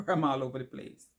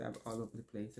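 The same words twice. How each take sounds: First: Laughing, a bit louder; real self-mocking laugh; laughing at herself. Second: Said in the usual way. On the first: Real, not acted. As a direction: laugh through the admission. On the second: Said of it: "which I'm always".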